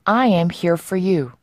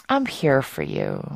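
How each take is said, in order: First: Said in the usual way. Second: Softer, lower and slow, like comforting a friend; tender reassurance. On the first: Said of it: "요런 표현인데요". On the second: Shown as a demonstration. Teacher voicing comfort to a troubled friend, tender and soft. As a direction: say it gently, as if your friend is hurting.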